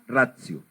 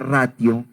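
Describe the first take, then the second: First: The middle consonant is a soft ts sound. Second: The middle consonant is a plain t sound. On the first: The speaker calls it right. "¿Por qué pronuncio ratio así?" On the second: The speaker calls it wrong. "en latín no se pronuncia ratio, sino que la T se produce como C suave"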